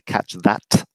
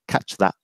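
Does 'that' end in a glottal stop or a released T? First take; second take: Released T; Glottal stop. First: The final T is clearly released. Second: The final T becomes a glottal stop. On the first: "You don't need to say" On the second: "with a um, glottal stop at the end"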